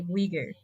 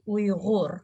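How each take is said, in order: First: The middle consonant is a plain hard g. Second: The middle consonant is a throaty, guttural sound. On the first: This is how the name is said in English. "in English, there's no Ri sound, so we only can say Uyghur" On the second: This is how the name is said in its own language. "in Uyghur language, we say Uyghur"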